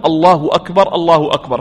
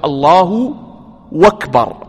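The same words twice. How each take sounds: First: Said in the usual way. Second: الله and أكبر cut apart by a pause; breaking الله أكبر in two with a gap; wrong split. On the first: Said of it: "وأيضًا نقول". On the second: Shown as a demonstration. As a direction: pause after الله before أكبر, demo of the mistake. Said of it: "وهذا طبعًا ليس بصواب".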